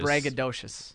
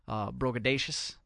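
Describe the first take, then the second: First: The word begins with a 'brag' sound. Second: The word begins with a 'bro' sound. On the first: The speaker calls it right. "It would be braggadocious" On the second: The speaker calls it wrong. "I don't think that's the way you say it"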